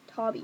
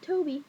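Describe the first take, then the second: First: The first vowel is short, as in 'bob'. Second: The first vowel is long, as in 'go'. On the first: The speaker calls it right. "Tobby, not Toby" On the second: The speaker calls it wrong. "not Toby"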